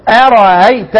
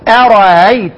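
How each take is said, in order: No difference in how they are said.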